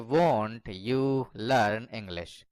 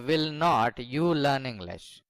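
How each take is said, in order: First: Will not is contracted to one word, won't. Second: Will not is said as two full words. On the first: The speaker calls it right. "वोंट you learn English कहें तो ज्यादा बेहतर है।" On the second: The speaker calls it wrong. "विल नॉट you learn English बोलने के बजाय"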